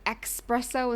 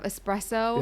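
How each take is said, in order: First: It begins with an 'ex' sound, like expresso. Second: It begins with an 'es' sound, without a k. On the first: The speaker calls it wrong. "they get really irritated if you say" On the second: The speaker calls it right. "instead of"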